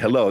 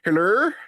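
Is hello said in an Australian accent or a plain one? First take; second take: plain; Australian. First: Hello is said in a plain, unaccented way. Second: Hello is said in an Australian accent. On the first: "they just don't say hello" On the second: "They're like hello. Because they have that Australian accent"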